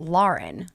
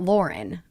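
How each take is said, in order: First: The name sounds like 'Lau-ren', with an 'au' vowel. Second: The name sounds like 'Loren', with an 'or' vowel. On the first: This is how she actually says her own name. The speaker calls it right. "that's her name ... L A U R E N" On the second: This is how most people say the name. The speaker calls it wrong. "It's not Lauren. ... Lauren's more L O R E N"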